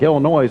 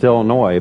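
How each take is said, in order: First: The word ends with an audible s sound. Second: The word ends without any s sound. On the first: The speaker calls it wrong. "the people are like, Illinois. I'm like, what's with the S?" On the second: The speaker calls it right. "It's Illinois"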